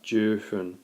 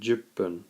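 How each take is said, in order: First: The number is said in full before fun. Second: The number is shortened with a doubled p sound. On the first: The speaker calls it wrong. "not jufun" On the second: The speaker calls it right. "and juppun"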